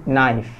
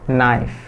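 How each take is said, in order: Both takes have the same delivery.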